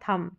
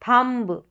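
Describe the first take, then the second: First: No b sound is heard after the m. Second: A b sound is heard after the m. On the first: The speaker calls it right. "बी का जो है sound नहीं आएगा" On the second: The speaker calls it wrong. "थम्ब नहीं होगा"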